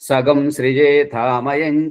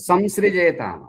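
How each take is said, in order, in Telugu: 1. నాసికా ధ్వని అదనపు 'gam' ధ్వనిలా పలుకుతారు. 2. నాసికా ధ్వని సాధారణ 'm' ధ్వనిలా పలుకుతారు. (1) "అవగాహన లోపం, ఉచ్చారణ దోషం" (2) "ఇక్కడ వేదంలో ఉన్నది"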